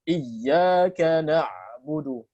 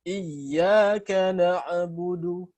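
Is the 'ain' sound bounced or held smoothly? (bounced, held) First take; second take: held; bounced. First: The ain sound is held without any bouncing echo. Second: The ain sound is released with a bouncing echo. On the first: The speaker calls it right. "jadi bacaan yang benar tanpa qalqalah" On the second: The speaker calls it wrong. "banyak yang baca gini ya"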